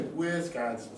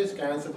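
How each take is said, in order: First: Wisconsin with all three syllables; full pronunciation. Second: Wisconsin cut down to 'Sconsin; shortened local pronunciation. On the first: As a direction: sound the Wi at the start of Wisconsin. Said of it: "A lot of people say". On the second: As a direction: say Wisconsin without its first syllable, Wi. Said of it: "you shorten the word up". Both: Shown as a demonstration.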